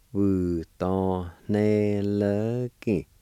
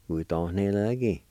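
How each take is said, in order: First: "Wu, don, ne, le, ki" drawn out and linked slowly; slow syllable sounding-out. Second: Said in the usual way. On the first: Shown as a demonstration. Teacher repeating handed for learners, slowly syllable by syllable. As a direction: stretch each syllable of "Wu, don, ne, le, ki". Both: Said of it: "It's pronounced like this".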